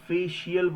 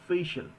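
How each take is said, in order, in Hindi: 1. अंत 'shee-ul' अक्षरों में बँटा है। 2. अंत एक छोटा 'shul' अक्षर है। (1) "बोलते तो होंगे, बट आज से नहीं बोलना है" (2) "इसे हम बोलते हैं"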